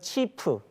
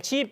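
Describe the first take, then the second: First: It ends with an added vowel after the consonant. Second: It ends on a final consonant, no vowel. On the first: "스페인 사람들은 치프 이렇게 읽어버립니다" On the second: "내 집 이러면은"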